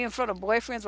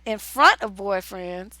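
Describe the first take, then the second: First: Said in the usual way. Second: Slow questioning echo, weight on "front"; incredulous echo. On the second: Real, not acted. Host questioning what she just read, incredulous stress on "front". Repeats the letter's words in disbelief.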